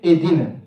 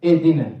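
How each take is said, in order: First: The h sound is left out entirely. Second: The h sound is left out entirely.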